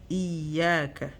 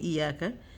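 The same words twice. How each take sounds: First: The ya sound is doubled and held. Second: The ya sound is short and single. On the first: The speaker calls it right. "You have to make double the ya" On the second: The speaker calls it wrong. "If you're saying iyaka, it's wrong"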